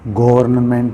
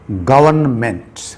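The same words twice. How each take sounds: First: The r sound is pronounced in the word. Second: The r sound is silent in the word. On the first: The speaker calls it wrong. "ऐसा नहीं है" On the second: The speaker calls it right. "आर silent है यहाँ पर"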